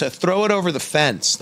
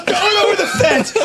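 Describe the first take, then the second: First: Higher, casual mock dad voice; imitating dad. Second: Much higher, laughing through the quote; laughing imitation. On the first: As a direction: toss off the line like an offhand director. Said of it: "He goes". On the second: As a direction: squeal the quote while cracking up. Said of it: "he goes".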